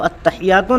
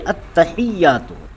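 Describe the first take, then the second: First: The ya sound is said short and single. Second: The ya sound is held long and doubled. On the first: The speaker calls it wrong. "नहीं" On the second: The speaker calls it right. "बल्कि ... उसे दो मरतबा पढ़ा जाता है"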